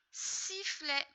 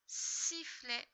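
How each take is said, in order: First: Sifflet higher and louder, falling; word emphasised. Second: Said in the usual way. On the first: Shown as a demonstration. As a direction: announce Sifflet brightly. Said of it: "word said emphatically". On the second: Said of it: "word repeated plainly".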